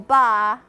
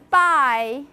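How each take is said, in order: First: It is said with a flat, long Southern vowel. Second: It is said with a plain two-part vowel. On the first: "This is very southern" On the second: "instead of saying buy"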